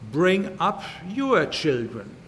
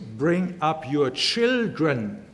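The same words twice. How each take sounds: First: The stress is on "your". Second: The stress is on "children".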